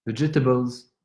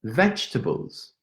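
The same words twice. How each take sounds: First: "Vegetables" said in four even syllables, ve-ge-ta-bles; careful French-accented "Vegetables"; "Vegetables" with every syllable given weight; French-style vegetables. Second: "Vegetables" slowly, squeezed to three syllables, vedge-ta-bles; a patient "Vegetables" as vedge-ta-bles; slow careful try. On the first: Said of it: "I used to say vegetables". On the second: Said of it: "still doesn't work". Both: Shown as a demonstration.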